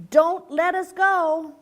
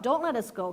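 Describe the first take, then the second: First: Slow, louder plea; pleading call. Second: Said in the usual way. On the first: A narrator's reading. Father frog begging the hawk, slow and loud. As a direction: beg the hawk slowly and loudly. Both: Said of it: "So now he's telling the hawk".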